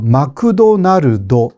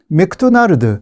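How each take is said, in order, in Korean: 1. 추가 모음이 자음 묶음을 갈라놓습니다. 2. 주로 자음으로 끝나고 추가 모음은 적습니다. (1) "마크도날드 이렇게 말합니다" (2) "물론 맥도날드"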